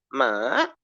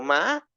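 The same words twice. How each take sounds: First: The pitch dips down and then rises. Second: The pitch is high. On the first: "empiezo normal, luego me bajo y luego subo" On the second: "me voy a uno agudo"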